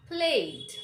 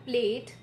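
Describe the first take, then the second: First: Plate slowly with a puffed P; emphatic aspirated plate; correct P. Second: Plate with no puff, near "blate"; unaspirated P in plate; wrong P. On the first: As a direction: pop the P and draw out plate. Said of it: "This is the correct pronunciation". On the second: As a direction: say plate with a weak P. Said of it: "So it's not plate". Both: Shown as a demonstration.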